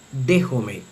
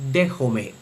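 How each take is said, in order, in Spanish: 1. La vocal final suena como 'e'. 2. La vocal final suena como 'e'.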